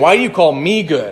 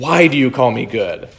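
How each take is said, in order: First: The stress falls on the word 'good'. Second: The stress falls on the word 'why'. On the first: He denies that he is good. The speaker calls it wrong. "It's not him saying" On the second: He asks the reason for calling him good. The speaker calls it right. "He's emphasizing the why"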